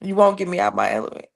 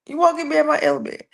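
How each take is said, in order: First: Said in the usual way. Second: ELEMENT line repeated higher and quick. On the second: Real, not acted. Host steadying herself after glitches, higher and faster. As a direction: lift "You won't get me out my element" high and rush it.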